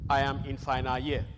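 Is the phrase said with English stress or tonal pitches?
tonal pitches. Syllables carry level, tone-like pitches. The speaker calls it wrong. "students will tell you"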